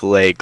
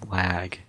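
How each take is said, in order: First: The vowel sounds like the 'e' in 'leg'. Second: The vowel is an open 'ah' sound. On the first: The speaker calls it wrong. "You say it like leg" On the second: The speaker calls it right. "but it's not. It's lag"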